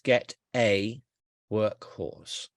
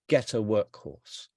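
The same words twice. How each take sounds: First: The phrase is said slowly, word by word. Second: The phrase is said quickly, words run together. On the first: The speaker calls it wrong. "If I say it slowly, it's wrong" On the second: The speaker calls it right. "you can't say this slowly"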